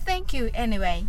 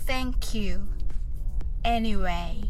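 First: The phrase is said quickly, as one unit. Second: The phrase is said slowly, in separate parts. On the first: "それでは早く言ってみましょう。" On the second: "はじめはゆっくりです。"

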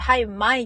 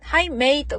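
First: It is said in a strong local accent. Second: It is said in a plain standard accent.

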